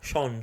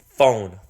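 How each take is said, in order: First: The word begins with a hissing s-like sound. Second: The word begins with a clear f sound. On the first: The speaker calls it wrong. "he doesn't say phone. He says Sean" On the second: The speaker calls it right. "Phone, f f f phone"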